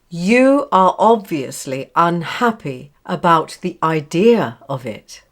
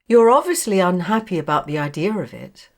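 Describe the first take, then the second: First: Each word is said separately, without linking. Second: The words run together in connected speech. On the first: "words in isolation" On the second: "Now connected"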